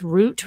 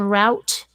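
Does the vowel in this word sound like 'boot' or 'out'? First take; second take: boot; out. First: The vowel sounds like the one in boot. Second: The vowel sounds like the one in out. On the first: This is the pronunciation the speaker grew up with. "I was raised with root" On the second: This is the pronunciation the speaker did not grow up with. "rather than route"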